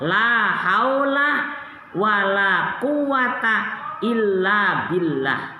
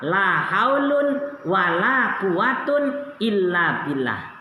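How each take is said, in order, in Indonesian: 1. Kedua kata benda berakhir dengan vokal -a pendek. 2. Kedua kata benda berakhir dengan -un. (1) "Keduanya boleh dibaca fathah" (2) "Rofa semua"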